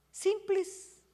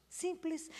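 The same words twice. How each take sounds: First: Simples said high and bright, pitch lifted on the word; emphatic simples. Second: Simples repeated softer, falling and dropping away. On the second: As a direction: let simples fall quietly. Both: Shown as a demonstration.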